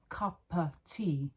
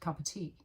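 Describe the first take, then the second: First: The phrase is said slowly and clearly. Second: The phrase is said fast with reduced words. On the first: "if I'm saying it very slowly" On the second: "if I say it fast"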